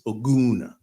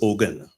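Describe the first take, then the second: First: The name is pronounced in its original way. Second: The name is pronounced in an anglicized way. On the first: The speaker calls it right. "the correct pronunciation is" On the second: The speaker calls it wrong. "he went with the English, ... bastardization of the word"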